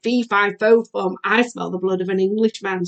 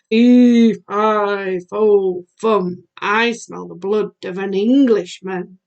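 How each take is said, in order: First: Said in the usual way. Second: Loud, drawn-out giant's bellow on the first word, easing off. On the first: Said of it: "that was what he said". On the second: A narrator's reading. Teacher voices the giant coming into the room, bellowing. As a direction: boom out the opening like a storybook giant. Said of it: "he bellowed".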